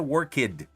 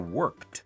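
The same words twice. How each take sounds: First: The ending is said as an extra syllable. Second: The ending is said as a consonant only. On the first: The speaker calls it wrong. "não é worked" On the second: The speaker calls it right. "é worked... só pronuncia o D"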